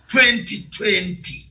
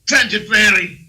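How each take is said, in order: First: It is said in a British accent. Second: It is said in an American accent. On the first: "I'll stick to British Empire" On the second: "This is American"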